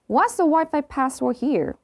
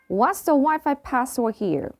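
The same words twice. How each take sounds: Both takes have the same delivery.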